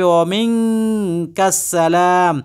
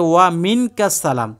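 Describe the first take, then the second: First: Long vowels and nasal sounds are held out. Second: Long vowels and nasal sounds are said short. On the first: The speaker calls it right. "এখানে বলতে হবে" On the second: The speaker calls it wrong. "এখানে লেখা আছে"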